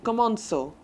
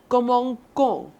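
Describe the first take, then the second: First: The middle consonant is a soft S sound. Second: The middle consonant is a hard K sound. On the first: The speaker calls it right. "the C retains the S sound and does not gets the K sound" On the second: The speaker calls it wrong. "That sounds really weird. And it s- sounds kind of harsh"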